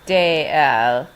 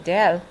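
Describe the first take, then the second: First: Two separate syllables, de and el. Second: One contracted syllable, del. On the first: The speaker calls it wrong. "you don't say de el" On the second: The speaker calls it right. "When you're speaking fast, you say del, and it contracts naturally"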